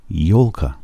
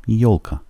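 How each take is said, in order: Both takes have the same delivery.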